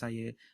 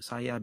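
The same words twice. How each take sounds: First: The final vowel is reduced to 'uh'. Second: The final vowel is a full 'ah' sound. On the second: "A becomes E"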